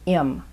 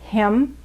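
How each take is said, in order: First: The word is reduced, the h dropped. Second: The word is said in full with h.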